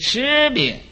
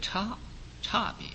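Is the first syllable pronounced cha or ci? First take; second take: ci; cha. First: The first syllable is pronounced ci. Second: The first syllable is pronounced cha. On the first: The speaker calls it right. "应该读成一个持" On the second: The speaker calls it wrong. "一般人读它成一个差别"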